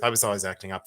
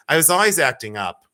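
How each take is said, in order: First: Quiet confession. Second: Said in the usual way. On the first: Shown as a demonstration. Admitting to viewers she misbehaved in school, quiet. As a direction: lower and softer, owning up. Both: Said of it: "I'll tell you the truth".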